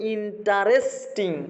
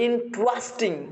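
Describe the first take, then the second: First: A vowel separates the t and r sounds. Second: The t and r sounds are joined together. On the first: The speaker calls it wrong. "আমরা বলি ইন্টারেস্টিং" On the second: The speaker calls it right. "কিন্তু এটা হচ্ছে ইন্টারেস্টিং"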